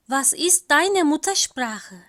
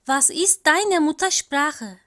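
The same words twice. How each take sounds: The two takes are said the same way.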